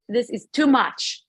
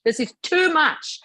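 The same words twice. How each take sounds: First: Drawn-out, exasperated protest; exasperated outburst. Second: Mock scream. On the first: Retold or imitated. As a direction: retell losing patience, slowly stressed. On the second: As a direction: imitate screaming by pitching it up. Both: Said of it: "screaming now".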